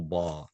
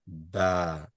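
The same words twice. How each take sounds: First: The vowel is rounded and heavy. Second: The vowel is flat and light. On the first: The speaker calls it wrong. "as opposed to" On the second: The speaker calls it right. "More of a flatter sound"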